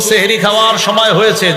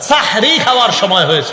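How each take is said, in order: First: The first word begins with 'seh'. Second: The first word begins with 'sah'. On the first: It is time to eat magic. The speaker calls it wrong. "এটা আর বলা যাবে না" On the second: It is time to eat the blessed pre-dawn meal. The speaker calls it right. "সাহরুন পবিত্র খাদ্য"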